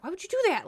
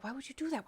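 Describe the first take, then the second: First: High, loud repeat in dismay; exasperated protest. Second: Softer, higher exasperated question; dismayed protest. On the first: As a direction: burst out in acted exasperation. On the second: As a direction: protest in quiet disbelief. Acted protest to meddling friend. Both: Retold or imitated.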